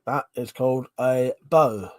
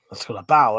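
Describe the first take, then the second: First: "bow" with a long o, like go; "bow" said as "boh"; bow rhyming with go. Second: "bow" with an ow vowel, like cow; "bow" said as in take a bow; bow rhyming with cow. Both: Shown as a demonstration.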